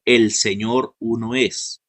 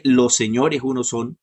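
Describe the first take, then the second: First: "El Señor uno es" very slow, with EL leaned on hard; stress on EL. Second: Said in the usual way. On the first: Shown as a demonstration. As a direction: drag out "El Señor uno es", punching EL as the right reading. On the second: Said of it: "no dice".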